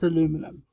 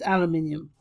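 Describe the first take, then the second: First: It is said with four syllables, American style. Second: It is said with five syllables, British style. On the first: "why the Americans say aluminum" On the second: "I'm British, so it's aluminium"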